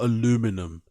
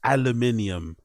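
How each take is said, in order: First: It is said the American way, with four syllables. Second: It is said the British way, with five syllables. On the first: The speaker calls it wrong. "You flipping Americans with your aluminum" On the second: The speaker calls it right. "It's aluminium"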